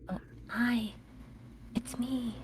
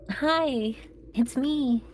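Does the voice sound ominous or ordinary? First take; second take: ominous; ordinary. First: It is said in an ominous, menacing way. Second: It is said in an ordinary, non-ominous way.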